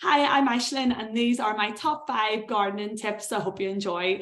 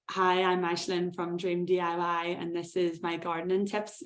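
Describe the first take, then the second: First: Upbeat. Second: Unexcited, not upbeat. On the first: Presenter showing viewers an engaging video intro, upbeat. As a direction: greet viewers with excitement to hook them. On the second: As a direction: introduce yourself without any excitement. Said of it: "it's a wee bit more, you know, upbeat". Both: Shown as a demonstration.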